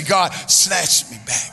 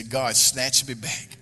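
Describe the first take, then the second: First: Louder, slow and earnest "God, snatch me back"; meant it. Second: Said in the usual way. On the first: Shown as a demonstration. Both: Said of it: "say it like you mean it".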